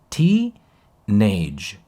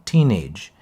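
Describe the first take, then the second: First: The first syllable is pitched much higher, exaggerated. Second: The first syllable is only slightly higher, natural. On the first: "deja de decirla con exageración" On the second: "Ahora no lo digo así, obviamente, digo teenage"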